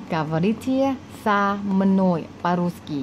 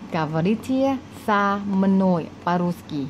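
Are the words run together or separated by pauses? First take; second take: separated; separated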